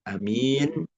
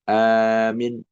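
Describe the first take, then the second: First: The first vowel is short. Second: The second vowel is short. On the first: "kalau A-nya pendek" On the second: "Atau mimnya pendek"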